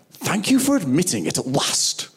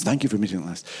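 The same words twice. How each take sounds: First: Exaggerated, drawn-up mimicry of someone receiving an apology; mock grudging acceptance. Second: Said in the usual way. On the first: Preacher mimics how most people answer an apology, mock grudging acceptance. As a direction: play up the I-told-you-so, pitched higher.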